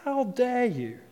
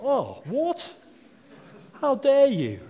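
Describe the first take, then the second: First: Same pretend offence, pulled back in volume; mock outrage. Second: High, loud hammed-up dad indignation; mock outrage. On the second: Dad to the kid who wants mayonnaise, high mock outrage. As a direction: play the offended cook dad, over the top. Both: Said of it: "You're like".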